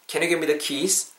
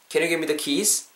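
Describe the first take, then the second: No difference in how they are said.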